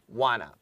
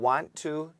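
First: The words are reduced and run together. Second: Both words are said in full. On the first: "wanna도 가능하죠" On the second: "want to 또는 wanna"

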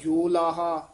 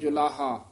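First: The first syllable has a full o vowel. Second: The first syllable has a vowel between o and u. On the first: The speaker calls it wrong. "ना कहना जोलाहा" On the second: The speaker calls it right. "दरम्याना जा उच्चारण करना जुलाहा"

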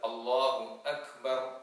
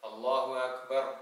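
First: Akbar begins with a clear glottal stop. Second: Akbar begins without a clear glottal stop. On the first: The speaker calls it right. "ആ രൂപത്തിൽ കൃത്യമായി നാം ഉച്ചരിക്കേണ്ടതുണ്ട്" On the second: The speaker calls it wrong. "ആ ഹംസ കൃത്യമായി ഉച്ചരിക്കാതെ"

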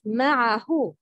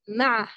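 First: The vowel after the ayn is clearly pronounced. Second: The vowel after the ayn is swallowed. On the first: The speaker calls it right. "The right pronouncing is" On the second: The speaker calls it wrong. "The wrong is"

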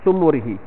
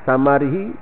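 First: The first two vowels sound like 'u'. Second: The first two vowels sound like 'a'. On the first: "satu lagi dibaca sebagai sumurihi" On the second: "Satu samarihi"

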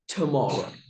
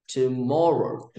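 First: The stress is on the first syllable. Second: The stress is on the second syllable. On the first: The speaker calls it wrong. "Two is not a strong beat" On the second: The speaker calls it right. "the strong beats falls on the second syllable of tomorrow"

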